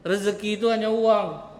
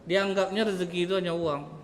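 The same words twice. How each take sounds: First: "rezeki itu hanya uang" said loud and high; emphatic. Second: Said in the usual way. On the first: Shown as a demonstration. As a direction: hammer home "itu" with a falling tune.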